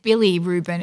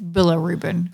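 First: The second syllable ends in an 'ee' sound. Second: The second syllable ends in an 'uh' sound. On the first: The speaker calls it wrong. "I said Billy Rubin" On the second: The speaker calls it right. "It's Billa Rubin"

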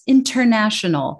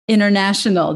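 First: The middle T is clear and crisp. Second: The middle T is dropped. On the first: The speaker calls it right. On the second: The speaker calls it wrong.

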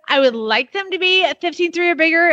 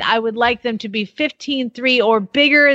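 First: It is read in an exaggerated, gushing put-on voice. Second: It is read in a plain, ordinary voice.

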